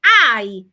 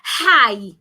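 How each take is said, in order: First: It starts without an h sound. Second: It starts with an h sound. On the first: The speaker calls it right. "It's I without the H" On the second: The speaker calls it wrong. "Don't say hi"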